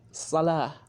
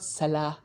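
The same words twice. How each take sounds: First: The first sound is a heavy, emphatic s. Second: The first sound is a light, plain s. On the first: The speaker calls it right. "The Sad is different from the S" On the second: The speaker calls it wrong. "It's not salah"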